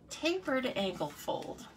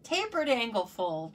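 First: Slow, higher, fancy-sounding name; mock shishi. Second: Said in the usual way. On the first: Shown as a demonstration. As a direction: make it sound grander than it is. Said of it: "make it sound so much more shishi". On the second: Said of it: "What did I call it before?".

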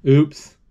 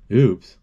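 First: Mock oops. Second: Said in the usual way. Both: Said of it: "Oops," David said".

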